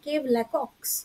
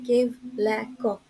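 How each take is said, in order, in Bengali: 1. নামটি 'ks' ধ্বনি দিয়ে শেষ হয়। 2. নামটি 'ks' ধ্বনি ছাড়া শেষ হয়। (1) "আমি যদি প্রথমবার এটা পড়তাম" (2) "অ্যাকচুয়ালি এটা প্রোনাউন্সিয়েশন হচ্ছে"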